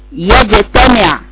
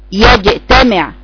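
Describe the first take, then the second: Both takes have the same delivery.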